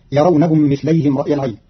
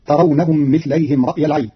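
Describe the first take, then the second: First: يرونهم read with initial ya, yurawnahum; يرونهم with ya, not ta; Hafs reading. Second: ترونهم read with initial ta, tarawnahum; ترونهم with ta of address; Qalun reading. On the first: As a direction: start يرونهم on a clear ya sound. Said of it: "قرأ قالون كلمة يرونهم بتاء الخطاب". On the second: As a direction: open ترونهم on a crisp ta. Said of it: "بتاء الخطاب، فتصير". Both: Shown as a demonstration.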